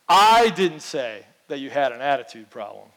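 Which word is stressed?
I. The stress is on the word I.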